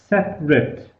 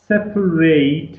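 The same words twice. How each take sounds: First: The last syllable is a short weak sound. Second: The last syllable is a full 'eight' sound. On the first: The word is used as an adjective. "As an adjective, it is separate" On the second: The word is used as a verb. "as a verb, it is separate, eight"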